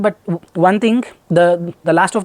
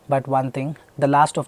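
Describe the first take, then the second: First: It is halting, with stumbles and repeated words. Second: It flows smoothly without stumbles or repeated words. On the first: The speaker calls it wrong. "end up speaking like this" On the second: The speaker calls it right. "I will never fumble"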